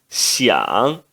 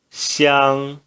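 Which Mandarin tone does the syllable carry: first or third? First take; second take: third tone; first tone. First: The syllable is said with the third tone. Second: The syllable is said with the first tone. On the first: "no terceiro tom" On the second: "no primeiro tom"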